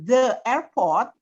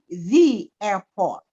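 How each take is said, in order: First: The word 'the' has a short 'thuh' vowel. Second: The word 'the' has a long 'thee' vowel. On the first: The speaker calls it wrong. "bukan the airport" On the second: The speaker calls it right. "diucapkannya menjadi the ketika setelah kata the-nya itu huruf hidup"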